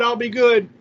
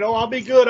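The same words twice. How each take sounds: First: Mock sweet promise, higher and louder, falling on "good"; hammed-up insincere pledge, settling down on "good"; fake promise. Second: Mock sweet promise, higher and louder, rising at the end; hammed-up insincere pledge with a lift on "good"; fake promise. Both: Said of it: "they'll pretend for a minute".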